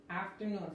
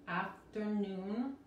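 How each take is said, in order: First: Said in the usual way. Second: "Afternoon" drawn out slowly, syllable by syllable, R untrilled; slow syllable demo. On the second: Shown as a demonstration. Teacher modelling for Spanish speakers, slow "Afternoon" with untrilled R. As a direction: break "Afternoon" into slow, separate parts. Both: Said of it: "la R no se vibra".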